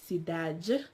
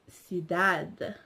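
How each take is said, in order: First: The last d sounds like a j. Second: The last d sounds like a plain d. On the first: This is the Brazilian Portuguese pronunciation. "the Brazilians will pr pronounce it as cidade" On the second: This is the European Portuguese pronunciation. "the Europeans will pronounce it as cidade"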